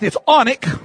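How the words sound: It is said the northern way.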